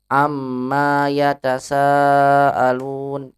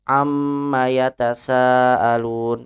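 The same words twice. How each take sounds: First: The vowel after the m is long. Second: The vowel after the m is short. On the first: It refers to the things they ask each other. The speaker calls it wrong. "Eh dibacanya panjang" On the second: It asks what they are questioning each other about. The speaker calls it right. "pendek maknya"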